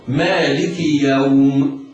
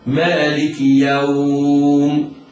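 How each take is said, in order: First: The stretched vowel is held for two counts. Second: The stretched vowel is held for four counts. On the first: "به سقوط المد، هكذا" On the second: "التوسط ومقدار أربع حركات، هكذا"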